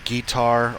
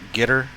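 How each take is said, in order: First: The word ends with an 'ar' sound. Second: The word ends with an 'er' sound. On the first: "I've heard it's guitar" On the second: "with an E R instead of an A R at the end, like gitter"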